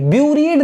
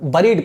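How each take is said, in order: First: The first vowel sounds like a 'yoo' or 'u'. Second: The first vowel sounds like the 'e' in 'berry'. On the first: The speaker calls it wrong. "buried नहीं पढ़ते" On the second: The speaker calls it right. "buried पढ़ते हैं"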